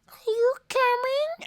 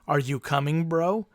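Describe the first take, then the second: First: It is said in a little cat voice. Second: It is said in a normal voice.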